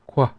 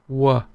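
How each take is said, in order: First: It begins with a k sound before w. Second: It begins directly with a w sound. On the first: This is how the North says it. "northern pronunciation is kwa, very clear" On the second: This is how the South says it. "Southern is wa, as in why or where"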